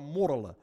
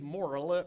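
First: "morrelen" with the speaker's Leiden R; own Leiden R. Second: "morrelen" with the other, unfavoured R; softer "morrelen", as the wrong example; rejected R. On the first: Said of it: "maar morrelen". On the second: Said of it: "Dus ik zeg niet morrelen". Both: Shown as a demonstration.

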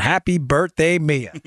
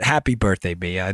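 First: A light touch of a Queens accent on happy birthday; birthday wish in a hint of a Queens accent; old Queens accent. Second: Said in the usual way. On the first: Shown as a demonstration. Host greets young fan Mia in a light Queens accent. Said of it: "my old former Queens accent". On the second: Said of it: "now you can replicate that accent".

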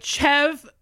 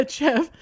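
First: Said in the usual way. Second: The name said through a real chuckle; failing not to laugh. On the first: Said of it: "I'm gonna say it and not laugh". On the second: Real, not acted. Host retrying the silly name Chev, breaking into a laugh. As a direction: try the name, crack up slightly. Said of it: "I'm gonna say it and not laugh one day".

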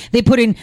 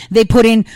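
Both takes have the same delivery.

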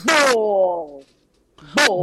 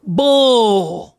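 First: "Bull" copied with imperfect drawl; attempted Southern drawl. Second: "Bull" drawn out long; Southern drawl. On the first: Echoing co-host, "Bull" in attempted Southern drawl. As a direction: echo "Bull" as a learner of Southern. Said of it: "you gotta nail this accent". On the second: Drilling one word for co-host, "Bull" in long Southern drawl. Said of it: "No, no, no". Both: Shown as a demonstration.

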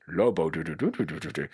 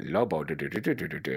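First: Low mock-French nonsense patter; comic French-accent riff on nonsense syllables. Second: Low mock-Mexican nonsense patter; comic Mexican-accent riff on nonsense syllables. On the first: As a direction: try out a rough French accent. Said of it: "Are you gonna be French?". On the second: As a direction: try out a rough Mexican accent. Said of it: "Are you gonna be Mexican?".

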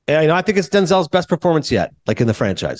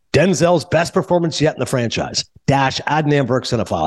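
First: Tossed-off blurb. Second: Quoted printed blurb. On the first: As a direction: toss it out without much conviction. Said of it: "you kinda just farted it out". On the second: Reading his blurb as printed. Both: Retold or imitated.

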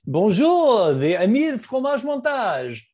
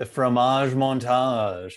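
First: Higher, louder hammed-up French accent; exaggerated French accent, pitched up. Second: Slow, vaguely French mock accent; a muddled attempt at French, drawn out; not-quite-French accent, slowly. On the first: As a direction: ham it up like a Parisian host. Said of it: "That's a little better". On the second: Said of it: "I don't even know what kind of an accent that was".

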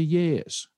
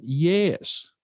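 First: "yes" stressed and pitched higher; retold emphatic answer, "yes" lifted in pitch. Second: Higher-pitched excited "yes"; an acted excited answer, not shouted; retold excitement. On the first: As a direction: answer with a firm, raised "yes". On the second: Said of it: "with great excitement".

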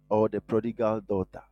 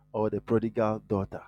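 The two takes are said the same way.

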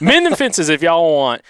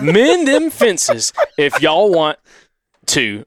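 First: Southern twang at a normal pace; smoother, flowing Southern accent. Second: Very slow, high Southern drawl; laboured, drawn-out Southern accent; Southern twang. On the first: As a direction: read it straight through in Alabama twang. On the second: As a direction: stretch every word in Alabama twang. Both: Acted. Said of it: "trying to do the accent".

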